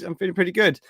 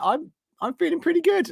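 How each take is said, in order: First: Said in the usual way. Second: Much higher playful squeak; squeaky high. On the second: Real, not acted. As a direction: jump up into a silly high voice. Chirpy high self-report.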